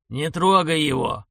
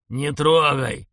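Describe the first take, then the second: First: Slow shouted warning. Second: Loud shouted warning. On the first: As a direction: yell it slowly as a warning. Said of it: "заорал за спиной дед". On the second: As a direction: yell it as a warning. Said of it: "орал за спиной дед". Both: Acted.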